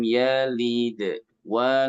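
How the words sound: The sound breaks off before the next word. The speaker calls it wrong. "Jangan dibaca lam yalid wa lam, itu putus"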